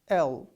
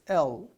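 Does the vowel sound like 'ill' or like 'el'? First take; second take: el; el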